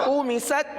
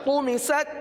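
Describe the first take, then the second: The two takes are said the same way.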